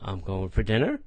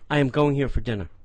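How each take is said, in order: First: It is said hesitantly, without confidence. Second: It is said confidently, like they mean it.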